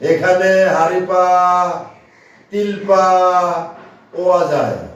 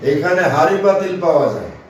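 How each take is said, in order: First: The words are split with breaks inside them. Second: The words are read smoothly without breaks inside them.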